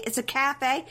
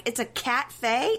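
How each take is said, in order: First: "cafe" run together without a T, rising; cafe pun. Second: "cat-fe" with the T sounded, drawn out; cat pun. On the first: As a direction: ask "cafe" as cah-fay, pitched up. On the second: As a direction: slowly split "cat-fe" into cat and fay, rising. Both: Retold or imitated. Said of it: "making cat pun after cat pun".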